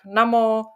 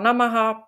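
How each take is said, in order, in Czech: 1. Slovo končí na hlásku -o. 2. Slovo končí na plnou slabiku -aha. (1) "pak namo" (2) "jednou ho slyšíme opravdu jako namaha"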